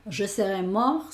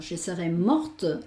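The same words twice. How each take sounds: First: Mort with the t silent, ending on the r; masculine French pronunciation. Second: Morte with the final t clearly sounded; feminine French pronunciation. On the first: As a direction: say mort as "mor", no t at the end. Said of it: "sería masculino". (mort pronunciado "mor", sin la t final) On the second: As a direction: land crisply on the t of morte. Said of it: "el femenino". (morte pronunciado con la t final audible, "mort") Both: Shown as a demonstration.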